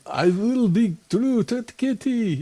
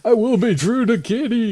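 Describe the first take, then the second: First: It is said in a Russian accent. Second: It is said in a plain voice.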